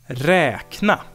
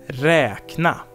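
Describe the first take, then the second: The two takes are said the same way.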